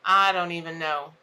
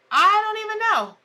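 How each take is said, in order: First: Said in the usual way. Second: Higher and a touch louder, throwing up her hands; a real exasperated cry of not knowing. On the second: Real, not acted. Host baffled that her stream broke, exasperated.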